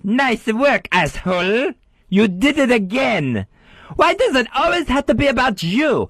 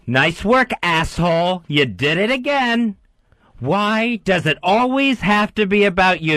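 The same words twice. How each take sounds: First: It is said high, squeaky, French-accented. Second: It is said in his normal voice.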